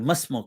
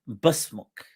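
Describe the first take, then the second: First: The word begins with an M sound. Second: The word begins with a B sound. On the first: The ordinary way of asking someone's name. "instead of saying masmuk" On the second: The question is asked in the tribe's own dialect. "because the ba and the ma is swapped by the Mazin of Rabi'a"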